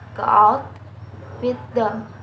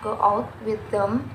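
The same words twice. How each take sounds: First: Extra stress falls on out and on them. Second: The words carry no special extra stress.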